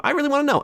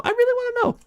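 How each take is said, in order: First: Pitched way up, pleading; high pleading. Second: Even higher, strained squeak; squeaky high plea. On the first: Speaker pleading with Alphys, high and whiny. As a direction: whine it up high. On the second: Speaker pleading with Alphys, squeaky high. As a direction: push it up into a squeak. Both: Acted.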